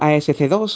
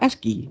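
First: It is spelled out letter by letter. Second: It is pronounced as one word. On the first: "yo siempre lo he dicho ASC2" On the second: "se pronunciaba ASCII"

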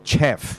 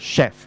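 First: The word begins with a 'ch' sound. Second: The word begins with an 'sh' sound. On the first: The speaker calls it wrong. "所以咧就唔好讀chef" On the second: The speaker calls it right. "其實差唔多係sh 音啦"

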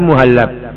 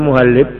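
First: The vowel before the final b is a. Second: The vowel before the final b is i. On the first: The speaker calls it right. "tapi muhallab" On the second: The speaker calls it wrong. "jangan dibaca muhallib"

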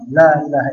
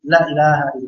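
First: The vowel in la is held long. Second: The vowel in la is cut short. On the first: There is no god. The speaker calls it right. "La-nya agak panjang, dua huruf" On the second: There truly is a god. The speaker calls it wrong. "Jadi jangan la ilaha"

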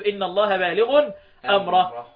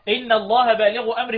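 First: 'Baligh' has nunation and the next word ends in -a. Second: 'Baligh' has no nunation and joins the next word. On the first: The second word is the object of the first. "بالتنوين مع النصب" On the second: The two words form a possessive phrase. "مضاف ومضاف اليه"

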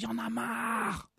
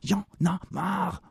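First: The phrase is said at a lower volume. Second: The phrase is said at a higher volume. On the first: The speaker calls it wrong. "C'est pas assez fort" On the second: The speaker calls it right. "Je vais mettre plus fort"

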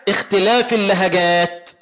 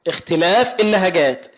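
No difference in how they are said.

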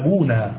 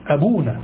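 First: The word ends in a long a vowel. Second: The word ends in a short a vowel. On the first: It means our father, with the pronoun attached. The speaker calls it wrong. "لا دون أن تكون بالألف" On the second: It is the plain plural meaning fathers. The speaker calls it right. "أبونا فقط بفتح النون"

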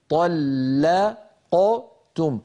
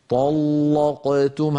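First: The l sound is light and thin. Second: The l sound is heavy and thick. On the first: This follows the Hafs reading. "نفخم الطاء ثم نرقق اللام" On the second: This follows the Warsh reading. "هكذا رواها ورش مفخمة"

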